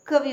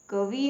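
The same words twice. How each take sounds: First: कवि short and quick, ka-vi; correct pronunciation. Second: कवि with long final ee, ka-vee; wrong pronunciation. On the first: Teacher correcting learners, कवि said short as ka-vi. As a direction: keep the final i of कवि short. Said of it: "कवि होता है". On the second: Teacher showing a misspelling, कवि lengthened to ka-vee. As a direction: stretch the end of कवि. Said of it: "कवि नहीं होता". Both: Shown as a demonstration.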